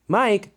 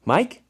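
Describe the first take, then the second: First: High call with a falling end; rousing call. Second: High, rising check on someone dozing; questioning call. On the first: Friend waking dozing Mike, high falling call. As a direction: call the name to wake someone, dropping at the end. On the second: Friend checking on dozing Mike, high questioning call. Rousing Mike who dozed off. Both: A narrator's reading.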